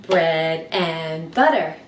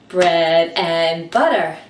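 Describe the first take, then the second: No difference in how they are said.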